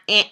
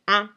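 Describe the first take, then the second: First: The vowel sounds like a nasal 'eh'. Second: The vowel sounds like a nasal 'un'. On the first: The speaker calls it wrong. "It's not eh" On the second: The speaker calls it right. "it's un"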